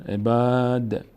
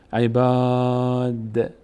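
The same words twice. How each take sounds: First: Said in the usual way. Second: عباد with the long a stretched very slowly; slow, chanted عباد; Quranic recitation. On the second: Shown as a demonstration.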